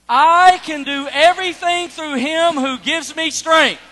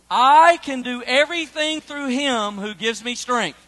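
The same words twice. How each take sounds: First: It is read with strong, excited energy. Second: It is read in a plain, even way.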